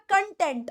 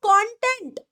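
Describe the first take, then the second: First: कंटेंट as "kun-TENT"; short first vowel in कंटेंट, "kun"; satisfied meaning. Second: कंटेंट as "KON-tent"; open, strong "kon" in कंटेंट; information meaning. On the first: Teacher sums up the satisfied meaning, कंटेंट said "kun-TENT". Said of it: "तो ये हो गया कंटेंट". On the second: Teacher moves to the other meaning, कंटेंट said "KON-tent". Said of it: "अगर आप कहते हो". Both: Shown as a demonstration.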